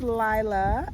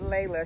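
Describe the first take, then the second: First: The name begins with a 'lee' sound. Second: The name begins with a 'lay' sound. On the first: The speaker calls it right. "we're going to pronounce her name right" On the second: The speaker calls it wrong. "I was pronouncing it Layla"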